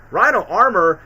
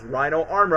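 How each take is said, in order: First: Rhino armor? louder, with a doubtful fall; surprised. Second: Said in the usual way. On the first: Real, not acted. The vlogger spotting a retcon mid-sentence, surprised. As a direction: catch yourself, wait, what.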